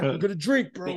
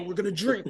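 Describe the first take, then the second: First: Much higher excited chant; sing-song drunken cheer; drunk hype. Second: Much higher, chanting it again; drunken sing-song cheer, dropping off; drunk hype. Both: Retold or imitated. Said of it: "And I'm like".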